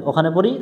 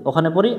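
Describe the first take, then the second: No difference in how they are said.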